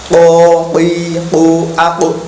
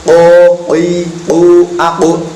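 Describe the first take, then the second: Both takes have the same delivery.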